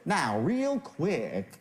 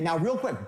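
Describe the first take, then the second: First: It is said slowly. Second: It is said quickly.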